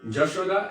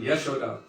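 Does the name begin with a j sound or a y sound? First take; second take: j; y. First: The name begins with a j sound. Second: The name begins with a y sound.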